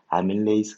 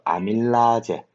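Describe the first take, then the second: First: The word ends with an 'ace' sound. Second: The word ends with an 'ah-jeh' sound. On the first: This is the current English-style naming. "요즘에는 영어식 발음으로" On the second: This is the older Japanese-style naming. "그 옛날에는 일본식 발음을 따라가지고 아제라고 불러줬어"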